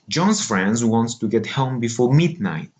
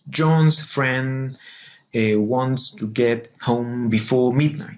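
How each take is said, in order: First: Some stresses are dropped for a regular rhythm. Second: Every content word carries a stress.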